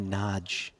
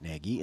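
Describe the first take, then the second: First: The name is said the Hungarian way, like 'nodge'. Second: The name is said in an anglicized way. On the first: "pivot back to Naj" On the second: "in the anglicized manner"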